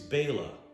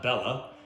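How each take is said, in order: First: The first syllable sounds like 'bay'. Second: The first syllable sounds like 'bell'. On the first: The speaker calls it right. "It's Bela" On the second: The speaker calls it wrong. "There's not two L's. It's not Bella"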